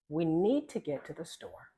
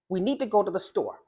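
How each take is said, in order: First: It is slower, with the words linked smoothly. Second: It is rushed, with small gaps between words. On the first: The speaker calls it right. "slowing down and saying" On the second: The speaker calls it wrong. "they kind of do this really quickly"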